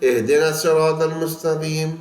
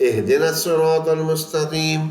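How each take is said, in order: No difference in how they are said.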